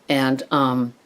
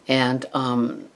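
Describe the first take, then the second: Both takes have the same delivery.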